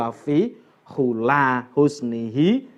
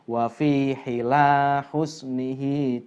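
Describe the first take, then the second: First: The word is said with a u vowel. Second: The word is said with an i vowel. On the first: This is the reading found in most books. The speaker calls it wrong. "kalau di kitab-kitab umumnya itu" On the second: This is the more eloquent reading. The speaker calls it right. "yang lebih fasih semestinya dibaca"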